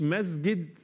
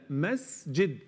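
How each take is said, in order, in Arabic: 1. صوت السين مجهور، مثل الزاي. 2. صوت السين مهموس، ويُسمع فيه فحيح. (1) "مش مز" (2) "هي مس"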